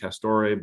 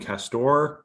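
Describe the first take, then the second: First: The name is said the Italian-style way. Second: The name is said the plain English way. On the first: The speaker calls it wrong. "I thought maybe you might pronounce it Castore" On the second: The speaker calls it right. "it's an English um, sportswear company. So I guess Castor would make more sense"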